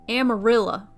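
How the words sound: The word is said with a Texan pronunciation. The speaker calls it wrong. "how the people in Texas pronounced amarillo"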